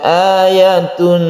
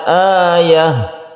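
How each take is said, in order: First: The word ends with a t sound plus -un. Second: The word ends with an h sound. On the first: The reading continues into the next word. "kita teruskan ayatun jannatan" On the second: The reading stops at this word. "ketika kita waqaf maka tak marbutoh ini menjadi ha"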